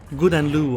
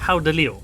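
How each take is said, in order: First: The name begins with a hard G sound. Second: The name begins with a breathy H sound. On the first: The speaker calls it wrong. "not Guden Lu or something like that" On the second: The speaker calls it right. "it's literally called Howden Leo"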